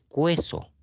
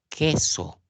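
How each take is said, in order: First: A 'w' sound is heard before the e. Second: No 'w' sound is heard before the e. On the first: The speaker calls it wrong. "Tú no dices cueso" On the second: The speaker calls it right. "Solamente está sonando la E"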